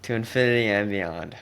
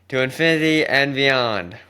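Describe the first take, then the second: First: It is said flatly, with little passion. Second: It is said with strong passion.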